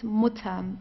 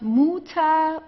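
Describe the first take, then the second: First: The first vowel is said very briefly. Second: The first vowel is drawn out long. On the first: The speaker calls it right. "very, very short" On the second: The speaker calls it wrong. "So it's not Mutter or so"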